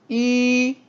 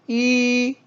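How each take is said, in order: First: The pitch stays high and level. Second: The same.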